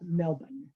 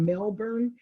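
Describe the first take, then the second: First: It is said the way Australians say it. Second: It is said the way Florida's town says it. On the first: It names the city in Australia. The speaker calls it right. "this would be more of Melbourne" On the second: It names the town in Florida. The speaker calls it wrong. "we have a town called Melbourne, but that's not how you pronounce this"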